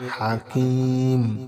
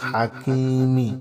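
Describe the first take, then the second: First: The word ends on the consonant 'm'. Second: The word ends with a short 'i' vowel. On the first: The reader stops at this word. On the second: The reading continues without stopping.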